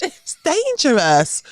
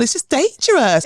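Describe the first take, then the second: First: Put-on slow, high, prim English accent; proper English accent. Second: Put-on high English accent, quicker; a polite English plea; proper English accent. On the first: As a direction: draw it out primly in an English accent. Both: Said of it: "I could hear myself sounding so English".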